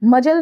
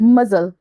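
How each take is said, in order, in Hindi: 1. बीच का व्यंजन j ध्वनि है। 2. बीच का व्यंजन z ध्वनि है। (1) "मजल नहीं" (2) "जब ज के नीचे अगर कहीं भी आप बिंदी देखें तो वहां पे आप मजल बोलेंगे"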